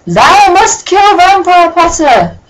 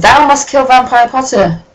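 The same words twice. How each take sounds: First: High, slow, loud mock-theatrical decree; Shakespearean villain. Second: Lightly declaimed mock-theatrical decree; a hint of ham Shakespearean villain. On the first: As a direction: declaim like a ham Shakespearean villain.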